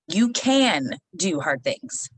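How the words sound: The emphasis falls on the word can. The speaker calls it wrong. "they wanted me to put the emphasis on the word can"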